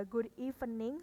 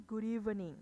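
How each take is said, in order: First: "good evening" as "gud ee-fe-ning"; unlinked "good evening" with a hard f; wrong f sound. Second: "good evening" linked as "gu-rivening"; linked "good evening", buzzing v; correct v sound. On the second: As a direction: say "good evening" smoothly with a voiced v. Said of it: "tapi "good evening". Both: Shown as a demonstration.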